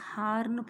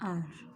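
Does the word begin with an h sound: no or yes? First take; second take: yes; no. First: The word begins with an audible h sound. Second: The word begins with no h sound. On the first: The speaker calls it wrong. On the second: The speaker calls it right.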